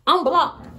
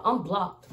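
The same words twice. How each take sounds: First: "I'm blocked" thrown out higher and louder; louder, higher repeat. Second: Said in the usual way. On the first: Shown as a demonstration. Telling followers she got blocked, loud and high. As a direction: hit "I'm blocked" harder the second time.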